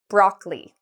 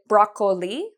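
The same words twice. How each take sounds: First: The word is said with two syllables. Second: The word is said with three syllables. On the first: The speaker calls it right. "it only has two syllables" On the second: The speaker calls it wrong. "we don't say broccoli"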